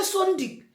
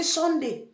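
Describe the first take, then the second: First: Sunday ending in a hard "-dik"; Swiss pronunciation of Sunday. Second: Said in the usual way. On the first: Shown as a demonstration. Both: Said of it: "they will say Sunday".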